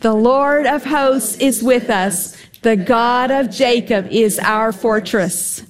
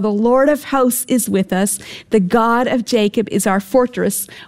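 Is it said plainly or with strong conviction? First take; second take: strong conviction; plainly. First: It is said forcefully, with strong conviction. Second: It is said in a plain reading tone.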